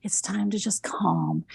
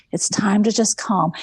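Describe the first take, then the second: First: Whispered, calming the dog: "it's time to just calm"; soothing whisper. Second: Said in the usual way. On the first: Retold or imitated. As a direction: breathe it out softly to settle a pet.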